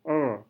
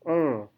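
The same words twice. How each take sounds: No difference in how they are said.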